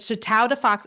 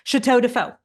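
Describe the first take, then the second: First: The last word ends with a ks sound, like 'fox'. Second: The last word ends in a vowel, like 'foe'. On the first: The speaker calls it wrong. "They would have said Chateau de Fox" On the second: The speaker calls it right. "I actually wanted to name the painting company Chateau de Faux"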